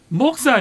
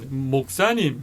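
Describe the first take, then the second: First: The stress falls on the first syllable. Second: The stress falls late in the word. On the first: This is how it is said in Daegu. "이게 대구래. 초성의 센 데가 대체로 대구 쪽" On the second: This is how it is said in Busan. "아유 목사님 하는 쪽이 부산이고"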